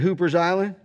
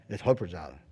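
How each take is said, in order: First: It is said with an outsider's pronunciation. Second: It is said with the local pronunciation.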